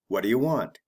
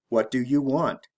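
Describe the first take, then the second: First: It is said fast with words run together. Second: Each word is said slowly and separately.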